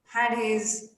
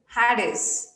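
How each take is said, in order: First: The H sound in "his" is light and subtle. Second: The H sound in "his" is light and subtle.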